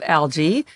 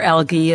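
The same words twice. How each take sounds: First: The word is said the usual American way. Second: The word is said the European way.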